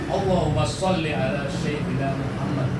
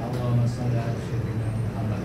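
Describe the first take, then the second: First: It is recited forcefully, with energy. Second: It is recited weakly, without force. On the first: The speaker calls it right. "Jadi bertenaga, berenergi" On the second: The speaker calls it wrong. "bukan begitu"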